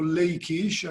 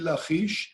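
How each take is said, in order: First: The middle consonant is a plain k sound. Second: The middle consonant is a throaty ch sound.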